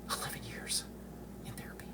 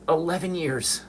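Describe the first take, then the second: First: Breathy whisper, almost gone. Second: High, pressed, ELEVEN hit hard; emphatic repeat. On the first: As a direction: let it fade to a whisper. Repeats the number, drops to whisper. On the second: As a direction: stress ELEVEN, pitched up. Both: Real, not acted.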